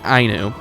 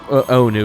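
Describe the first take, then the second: First: The word starts with an 'eye' vowel. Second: The word starts with an 'oh' vowel. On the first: The speaker calls it right. "That's that's how you pronounce it" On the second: The speaker calls it wrong. "I screwed up. It's not uh"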